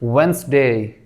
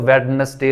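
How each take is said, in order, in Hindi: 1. बीच का d पूरी तरह से छोड़ दिया जाता है। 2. बीच का d साफ़ बोला जाता है। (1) "इस डी को खत्म कर देना है" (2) "लोग कहते हैं कि इसमें ये डी आता है तो वेडनेसडे लोग पढ़ते हैं"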